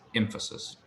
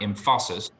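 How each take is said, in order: First: The stress falls on the first syllable. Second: The stress falls on a later syllable. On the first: The speaker calls it right. "the emphasis is on the first syllable" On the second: The speaker calls it wrong. "It's not emphasis"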